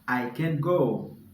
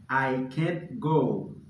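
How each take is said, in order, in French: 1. La négation se contracte en un seul mot court. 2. La négation se contracte en un seul mot court.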